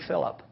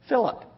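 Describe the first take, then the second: First: The name is said calmly and quietly. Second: The name is shouted loudly.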